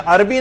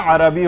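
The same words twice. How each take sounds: First: عربی in two syllables, "ar-bi"; common mispronunciation. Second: عربی in three syllables, "a-ra-bi"; correct pronunciation. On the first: Teacher showing the wrong form, عربی said as "ar-bi". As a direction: join r and b in عربی with no vowel between. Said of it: "عربی نہیں ہوتا". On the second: Teacher correcting the class, عربی said as "a-ra-bi". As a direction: put a short a between r and b in عربی. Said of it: "عربی ہوتا ہے". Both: Shown as a demonstration.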